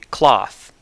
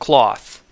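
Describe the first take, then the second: First: The vowel is the open 'ah' sound. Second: The vowel is the rounded 'aw' sound. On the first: The speaker merges the two vowels. "merge these sounds and realize basically cloth" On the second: The speaker keeps the two vowels apart. "instead of cloth"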